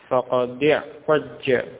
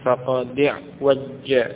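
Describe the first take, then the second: First: The first word ends in a bare consonant. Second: The first word ends with a linking vowel. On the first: "Sukun pada dal" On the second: "sukun yang awal pada huruf dal di kasrah"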